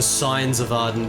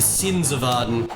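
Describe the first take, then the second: First: The word 'sins' is said like 'signs'. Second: The word 'sins' has its usual English sound. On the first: "the intro says the signs of Arden" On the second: "It's supposed to be the sins of Arden"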